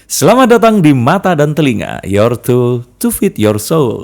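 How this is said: It is said in a smiling voice.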